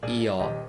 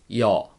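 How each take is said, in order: First: The vowel is split into two syllables. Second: The vowel is said as one syllable. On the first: The speaker calls it wrong. "Don't say yo" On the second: The speaker calls it right. "It has to be pronounced as one syllable"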